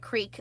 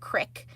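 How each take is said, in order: First: It has a long 'ee' vowel. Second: It has a short 'i' vowel, Pennsylvania style.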